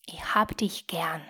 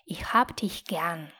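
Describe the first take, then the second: Both takes have the same delivery.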